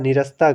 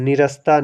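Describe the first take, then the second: No difference in how they are said.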